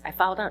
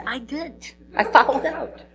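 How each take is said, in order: First: Said in the usual way. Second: Lightly voiced, higher cheeky admission; a hint of a proud goofball confessing; [name]'s sheepish answer. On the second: [name] answering his coach, lightly voiced higher cheeky admission.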